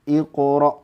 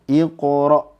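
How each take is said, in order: The two takes are said the same way.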